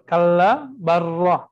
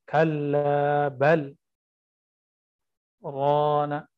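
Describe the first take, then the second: First: The words run together with no pause. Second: There is a brief pause after 'bal'. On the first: The speaker calls it wrong. "Jadi balnya hilang" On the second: The speaker calls it right. "dia harus disakta"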